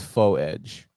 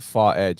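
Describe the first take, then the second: First: The first word ends in a long oh vowel. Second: The first word ends with an R sound. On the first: The speaker calls it right. "it's faux edge" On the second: The speaker calls it wrong. "it's it's not far edge"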